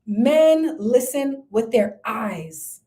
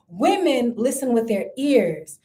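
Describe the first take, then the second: First: "Men" hit hard, each word slow; slow point with the stress on "Men". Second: "Women" hit hard, each word slow; slow point with the stress on "Women". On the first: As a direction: lean on "Men", then let it fall. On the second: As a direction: lean on "Women", then let it fall. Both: Shown as a demonstration.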